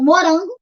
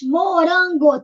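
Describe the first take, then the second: First: Said in the usual way. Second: MORANGO split evenly, MO, RAN, GO; syllable by syllable. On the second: Shown as a demonstration. Teacher counts the giraffe's food, syllable by syllable. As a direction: say MORANGO in three distinct beats. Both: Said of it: "três".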